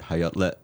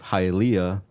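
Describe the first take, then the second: First: The name is said in its native form. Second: The name is said in its anglicized form.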